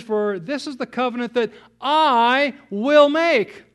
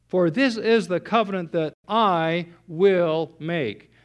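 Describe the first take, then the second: First: Higher and louder, slow, "will" hit hard; "will" punched as God's resolve; preacher's emphatic declaration; emphatic will make. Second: "this" leaned on, read slowly and evenly; slow measured scripture reading; slow careful reading. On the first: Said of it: "It's an emphatic". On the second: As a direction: lay the verse out slowly, weight on "this". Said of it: "Verse ten is very important because notice what it says". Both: Shown as a demonstration.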